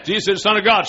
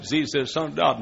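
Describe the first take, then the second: First: "Jesus is the Son of God" shouted higher and louder; louder repeat. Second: Said in the usual way. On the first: Retold or imitated. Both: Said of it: "Mama, say it again".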